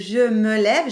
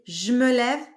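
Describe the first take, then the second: First: Every syllable is pronounced fully and separately. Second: The first vowel is swallowed, syllables run together. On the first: "au lieu de je me lève" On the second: "j'ai un peu mangé"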